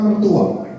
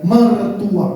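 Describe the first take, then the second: First: Mertua drawn out slowly for the crowd to repeat; slow, deliberate mertua. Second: Said in the usual way. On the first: Shown as a demonstration. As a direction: say mertua slowly, each syllable clear. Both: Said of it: "katakan mertua".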